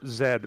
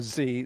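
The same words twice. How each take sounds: First: The letter is said the British way, zed. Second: The letter is said the American way, zee.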